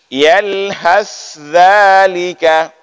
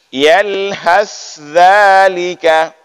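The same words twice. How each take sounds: First: The th and dh sounds are pronounced separately. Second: The same.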